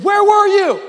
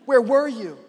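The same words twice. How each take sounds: First: High, loud acted outcry; upset, frustrated. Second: Mildly acted reproach; a restrained, hurt demand; upset, frustrated. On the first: Martha confronting Jesus on arrival, frustrated cry. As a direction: hurl the question as a wailing accusation. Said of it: "Martha is frustrated, and she's saying". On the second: Martha confronting Jesus on arrival, mildly upset. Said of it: "She's upset, and she's frustrated".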